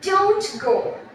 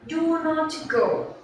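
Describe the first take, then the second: First: Do and not merge into one short syllable. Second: Do and not are said as two full words. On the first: The speaker calls it right. "if you say like that, don't go" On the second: The speaker calls it wrong. "we don't say do not go. It's very long to say"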